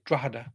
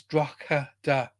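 First: "Drogheda" run together as DRAW-da; local Irish pronunciation. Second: "Drogheda" slowly sounded out as DROCK-heh-da; phonetic pronunciation. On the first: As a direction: say "Drogheda" with the middle letters dropped, DRAW-da. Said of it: "We drop a couple of the letters out". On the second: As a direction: say every syllable of "Drogheda", hard K in the middle. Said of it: "if you look at phonetically". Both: Shown as a demonstration.

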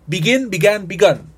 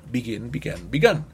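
First: "Begin" lifted and loud, each form said separately; loud, high model take; loud model pronunciation. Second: "Begin" dropped low and soft, each form said separately; low, soft echo take; soft repeat take. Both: Shown as a demonstration. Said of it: "Para que vean y escuchen la pronunciación".

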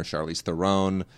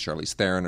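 First: THERON said "the-RONE"; other accent placement. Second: THERON said "THAIR-un"; first pronunciation. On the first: Host giving the other way, Theron as the-RONE. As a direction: stress the second syllable of Theron, the-RONE. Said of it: "where you put the accent". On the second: Host giving one of both ways, Theron as THAIR-un. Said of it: "always gets it both ways". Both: Shown as a demonstration.

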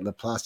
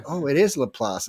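First: Laplace said la-PLAHSS, French way; correct pronunciation. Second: Laplace said la-PLAHSS; caller's admission. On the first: Shown as a demonstration. Host showing caller how locals say Laplace, la-PLAHSS. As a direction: say Laplace la-PLAHSS, rising at the end. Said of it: "That's how you say it". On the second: Retold or imitated. Quoting caller admitting Laplace said la-PLAHSS. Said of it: "And he calls me".

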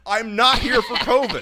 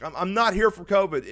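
First: High, loud, slow protest; emphatic repeat. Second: Said in the usual way. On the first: Retold or imitated. Patient corrects the check-in worker, loud and emphatic. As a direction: spell it out loudly and slowly, pitched up.

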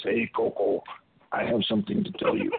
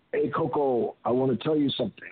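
First: Deep, put-on voice calling someone over; big deep voice. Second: Said in the usual way. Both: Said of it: "in a big, deep voice".

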